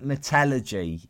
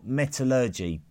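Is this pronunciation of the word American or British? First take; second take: British; American. First: The word is said the British way. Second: The word is said the American way. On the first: "We say metallurgy" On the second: "if you're over the other side of the Atlantic"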